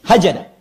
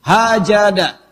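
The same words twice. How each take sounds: First: Said in the usual way. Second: Hajada stretched slowly, long final a; slow teaching pronunciation of Hajada; drawn-out Arabic word. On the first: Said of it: "disebut dengan hajada". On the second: Shown as a demonstration. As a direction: spell out Hajada syllable by syllable, very slow.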